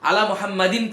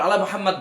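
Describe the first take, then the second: First: The name ends with the full case ending. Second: The name ends without the case ending. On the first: It is read with every grammatical ending voiced. "হারাকা দিয়ে পড়তে হবে" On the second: It is the casual usage of fluent Arabic speakers. "আরব শেখরা বলে আলা মুহাম্মাদ"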